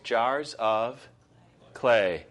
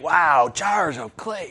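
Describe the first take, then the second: First: It is said flatly, without excitement. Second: It is said with put-on excitement.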